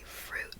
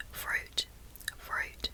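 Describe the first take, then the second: First: Whispered American "fruit" with tongue lower on U; American accent. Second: Whispered Australian "fruit" with a deep U; Australian "fruit", tongue back near the palate on U; Australian accent. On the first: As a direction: say "fruit" the American way, U less deep. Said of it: "in an American accent I'll say". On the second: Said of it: "but in an Australian accent I'll say". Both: Shown as a demonstration.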